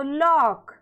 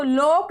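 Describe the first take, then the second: First: लॉक said "laak", vowel open. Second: लॉक misread as "loke", long O; wrong long O. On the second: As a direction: say लॉक with a round "oh". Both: Shown as a demonstration. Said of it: "नहीं पढ़ना है".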